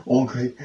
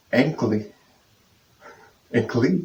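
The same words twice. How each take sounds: First: "Anglais" opening on "ong", ending "lay"; French pronunciation. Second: "ankly" with English "ank" and final "lee"; English-style misreading. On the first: Learner correcting their English-style reading, French pronunciation. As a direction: say "Anglais" roughly as "ong-glay". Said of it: "it is anglais". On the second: Learner showing how they would read anglais, English-style pronunciation. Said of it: "I'd read". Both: Shown as a demonstration.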